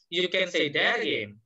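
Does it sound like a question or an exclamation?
exclamation. It sounds like an exclamation, stressing again.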